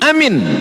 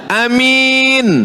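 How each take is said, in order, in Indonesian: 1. Kedua vokal pendek. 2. Vokal pertama pendek, yang kedua panjang.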